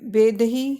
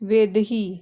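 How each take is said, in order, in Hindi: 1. शब्द 'ब' ध्वनि से शुरू होता है। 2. शब्द 'व' ध्वनि से शुरू होता है। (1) "बा जहाँ लिखा है लिखा है वहाँ पे हम वाह लिखेंगे" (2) "वहाँ पे हम वाह लिखेंगे"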